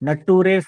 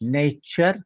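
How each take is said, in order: First: The ending is said as a spelled-out 'ture'. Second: The ending is said as a 'cher' sound. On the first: The speaker calls it wrong. "नटुरे फटुरे नाही म्हणायचं" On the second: The speaker calls it right. "यू आर यू असेल तर चर म्हणायचं"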